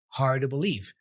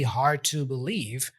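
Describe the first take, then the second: First: The word 'to' is reduced to a light 'da'. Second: The word 'to' keeps its full vowel. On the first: "Two gets reduced to a light D sound with a schwa" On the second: "He doesn't say hard to believe"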